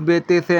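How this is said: The letter names end in an 'e' vowel. The speaker calls it wrong. "Urdu में नहीं पढ़ना। अलिफ बे ते से ऐसे नहीं पढ़ना"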